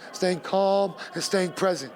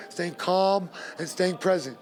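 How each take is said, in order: Both takes have the same delivery.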